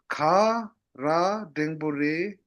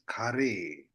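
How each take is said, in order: First: Every syllable of the phrase is said in full. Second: The phrase is squeezed into two short syllables. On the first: "You have to read it like this" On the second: "becomes kare"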